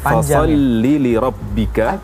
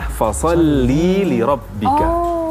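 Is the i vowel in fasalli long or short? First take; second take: short; long. First: The i vowel in fasalli is kept short. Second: The i vowel in fasalli is drawn out long. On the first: It is a command to one man. The speaker calls it right. "Itu yang benar" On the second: It is a command to one woman. The speaker calls it wrong. "Yang salah ... terpanjangkan vokal i"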